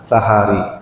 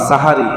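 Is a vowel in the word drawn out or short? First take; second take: drawn out; short. First: A vowel is drawn out and lengthened. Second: The vowels are said short, without lengthening. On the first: It means the last part of the night. The speaker calls it right. "একটু টান দিয়ে বললে" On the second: It means the upper chest. The speaker calls it wrong. "এভাবে না বলে"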